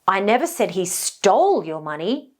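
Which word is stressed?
stole. The stress falls on the word stole. He may have only borrowed it. "now the implication is maybe somebody borrowed it"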